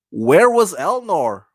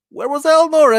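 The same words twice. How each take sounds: First: Slow, drawn-out "where was Elnor"; puzzled question. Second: High-pitched disbelieving "Where was Elnor"; incredulous question. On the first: Host questioning a plot gap, slow and puzzled. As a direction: ask "where was Elnor" slowly and deliberately. First asking of a baffled question. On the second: Host baffled by a plot gap, incredulous. Repeats question, much higher. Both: Real, not acted.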